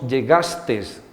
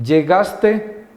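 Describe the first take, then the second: First: The word ends with an added s sound. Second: The word ends in a plain vowel. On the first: This is a popular nonstandard form. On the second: This is the standard form.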